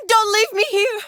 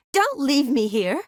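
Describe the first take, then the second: First: High, loud panicked plea; desperate cry. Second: Higher, slow plea with rising end; anxious plea. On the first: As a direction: cry out in alarm to be heard. Pleading louder, desperate. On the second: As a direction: plead slowly, voice lifting. Pleading not to be abandoned. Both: Acted.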